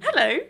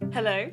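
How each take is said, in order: First: It sounds like greeting a show audience. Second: It sounds like answering a phone call.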